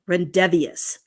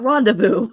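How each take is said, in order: First: The word ends with an extra 'vee-us' sound. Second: The word ends with a plain 'voo' sound. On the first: The speaker calls it wrong. "they called it rendevious" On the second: The speaker calls it right. "not rendezvous"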